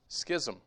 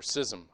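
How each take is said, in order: First: Schism with a hard k, SKIZ-um. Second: Schism with a silent ch, SIZ-um; soft schism. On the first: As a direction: say schism as "skizzum". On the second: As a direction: say schism as "sizzum". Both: Shown as a demonstration. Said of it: "however you pronounce it".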